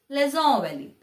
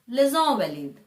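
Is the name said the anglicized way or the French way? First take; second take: French; French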